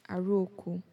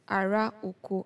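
First: The vowels merge and the words run together. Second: Both words are said fully, vowels kept separate. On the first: "the way you hear it is aroko" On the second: "Another example is ara oko"

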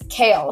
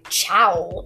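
First: The name begins with a k sound. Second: The name begins with a ch sound. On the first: The speaker calls it right. "it said it's Kaol" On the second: The speaker calls it wrong. "I thought it was like something like chowl"

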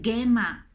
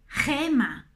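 First: The g is a soft dj sound. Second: The g is a throaty, h-like sound. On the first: The speaker calls it wrong. "No puedes decir gema" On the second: The speaker calls it right. "sforzati un po' di più a pronunciarla"

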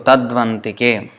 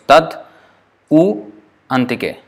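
First: One joined word, with u becoming v. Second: Three separate words, with u as a vowel. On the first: "u plus a becomes v" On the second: "it is three words"

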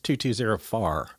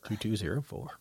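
First: Four sounds like far, Saint Louis style. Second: Four is said with a plain accent.

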